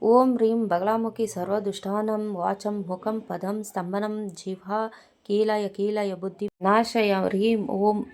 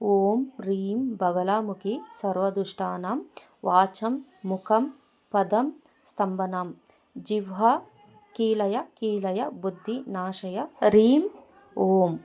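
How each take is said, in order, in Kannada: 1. ಮಂತ್ರನ ಬೇಗ ಬೇಗ ಅವಸರದಲ್ಲಿ ಹೇಳ್ತಾರೆ. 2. ಮಂತ್ರನ ನಿಧಾನವಾಗಿ ಮತ್ತು ಜಾಗ್ರತೆಯಿಂದ ಹೇಳ್ತಾರೆ. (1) "ಈ ಥರ ಎಲ್ಲ ಹೇಳ್ಕೊಂಡ್ರೆ ನಿಮಗೆ ಯಾವುದೇ ಮಂತ್ರಗಳು ಸಿದ್ಧಿಯಾಗಲ್ಲ" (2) "ಈ ಥರ ನೀವು ನಿಧಾನಕ್ಕೆ ಹೇಳ್ಕೋಬೇಕು"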